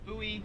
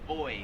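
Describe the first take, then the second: First: It is said with the American pronunciation. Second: It is said the Australian way, like 'boy'. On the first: "We pronounce that buoy" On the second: "Here in Australia, they pronounce it boy. Like boy and girl"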